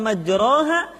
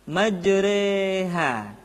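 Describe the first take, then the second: First: The vowel after r is an open a. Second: The vowel after r leans toward e. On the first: The speaker calls it wrong. "bukan majraha" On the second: The speaker calls it right. "tetapi majreha"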